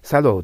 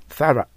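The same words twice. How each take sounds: First: "thorough" read by its spelling as "sadō"; spelling-style thorough. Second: "thorough" as a punchy "THA-ra", short final a; usual thorough. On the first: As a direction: say "thorough" with a d and a long final o. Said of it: "と書いてあるけども". (thorough を綴りどおり「サドー」と読む) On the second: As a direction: hit the first syllable of "thorough" high and loud, then a quick "ra". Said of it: "と発音するのが普通です". (thorough を普通の「サラ」で発音) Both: Shown as a demonstration.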